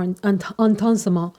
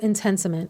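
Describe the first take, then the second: First: It is said with a put-on French accent. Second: It is said with a plain English accent.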